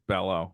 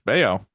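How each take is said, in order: First: The middle consonant is an L sound. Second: The middle consonant is a Y sound. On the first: This is how many fans and radio say it. The speaker calls it wrong. "most people think it's Bello" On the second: This is the name's actual pronunciation. The speaker calls it right. "it's just it's it's Bayo"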